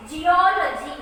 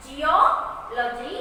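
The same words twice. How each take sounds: First: Geology in one piece with a strong O; teacher's model geology, stressed on O; stress on vowel. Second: Geology very slowly, split "geo... logy"; teacher's slow two-part geology; stressed syllable broken out. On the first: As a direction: lean on the O in geology. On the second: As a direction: pause after the long O in geology. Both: Shown as a demonstration. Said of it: "stress the vowels here".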